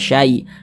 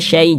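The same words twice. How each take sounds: First: The vowel is a soft 'ai' glide. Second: The vowel leans toward an 'e' sound. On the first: The speaker calls it right. "tapi dibaca syai, syai lunak" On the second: The speaker calls it wrong. "hati-hati jangan sampai condong ke huruf e. Jangan dibaca"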